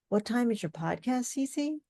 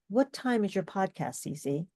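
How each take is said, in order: First: The pitch rises at the end. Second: The pitch falls at the end. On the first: The speaker sounds unsure. The speaker calls it wrong. "It's like lack of confidence" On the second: The speaker sounds confident. The speaker calls it right. "that sounds confident"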